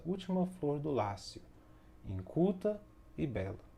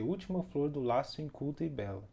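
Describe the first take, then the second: First: There is a pause before 'inculta'. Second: It is said quickly with no pause. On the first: The speaker calls it right. "com a vírgula e a pausa" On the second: The speaker calls it wrong. "se falássemos rapidão, se não tivesse a vírgula"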